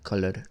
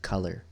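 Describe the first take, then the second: First: The vowel is said with rounded, closed lips. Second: The vowel is said open and relaxed. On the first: It imitates a Spanish speaker's English. "I'm picturing his lips going like color" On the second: It is the usual English pronunciation. "It's a little bit more open, relaxed"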